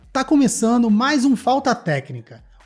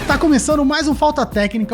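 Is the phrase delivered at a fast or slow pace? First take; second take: slow; fast. First: It is spoken slowly, with drawn-out pacing. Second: It is spoken at a quicker, natural pace. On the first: The speaker calls it wrong. "aí tá muito lento, tá muito lento" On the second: The speaker calls it right. "faz igual você tava fazendo"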